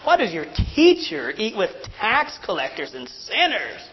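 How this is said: It is asked in a scornful, accusing tone. The asker is making an accusation. "But it would sound like this. That's how they're asking it"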